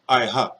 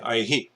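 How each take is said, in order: First: The final h is followed by an 'a' vowel. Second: The final h is followed by an 'i' vowel. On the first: The speaker calls it wrong. "You don't say" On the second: The speaker calls it right. "You say aihi"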